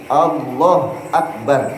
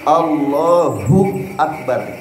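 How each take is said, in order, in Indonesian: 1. Tidak ada vokal setelah Allah sebelum Akbar. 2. Ada vokal u pendek setelah Allah. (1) "Jangan Allah Akbar, tidak boleh" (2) "hu-nya harus dibaca harokatnya"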